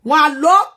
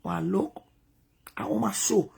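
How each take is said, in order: First: Louder, fuller restart. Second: Hushed, breathy whisper. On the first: She restarts her story louder than the whisper. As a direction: say it out firmly this time. Same words said out loud. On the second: She whispers the opening line to herself. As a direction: drop to a whisper as if sharing a secret. Quiet aside before the story. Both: Real, not acted.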